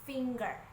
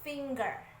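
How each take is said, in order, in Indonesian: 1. Diucapkan dengan aksen Amerika. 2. Diucapkan dengan aksen Amerika.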